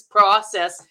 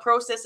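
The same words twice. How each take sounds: First: "process" with an open ah, "PRAH-sess"; "process" starting "prah"; American "process". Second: "process" with a long o, "PROH-sess"; "process" starting like "pro"; Canadian "process". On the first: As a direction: say "process" the American way, first vowel as in "father". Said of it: "it's process". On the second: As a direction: say "process" the Canadian way, first vowel as in "go". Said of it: "it's not process". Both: Shown as a demonstration.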